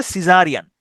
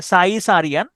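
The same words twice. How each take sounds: First: Said in the usual way. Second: সাই সারিয়ান read as spelt, "sai-sa-rian"; spelling pronunciation. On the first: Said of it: "এটা উচ্চারণ হচ্ছে সিজারিয়ান". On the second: Shown as a demonstration. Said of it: "এভাবে মনে রাখেন".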